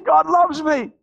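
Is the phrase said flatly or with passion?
passion. It is said with strong, heartfelt passion. The speaker has freshly felt this love. "Now it's something that you say it with a different passion"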